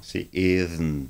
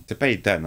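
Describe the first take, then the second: First: Ethan said as "izn", slowly; right pronunciation. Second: Ethan said as "itan", clear t and a; wrong pronunciation. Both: Shown as a demonstration.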